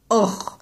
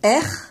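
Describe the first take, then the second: First: The syllable is said heavy, with a dark vowel. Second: The syllable is said thin, with a light r. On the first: "s'il dit Or, ça veut dire que le Hamza, il l'a fait de manière emphatique" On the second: "s'il dit R, ça veut dire que le Ro, il est pas emphatique"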